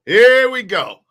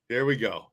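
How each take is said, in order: First: Loud, hyped-up "Here we go". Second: Said in the usual way. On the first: Shown as a demonstration. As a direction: shout "Here" like an announcer.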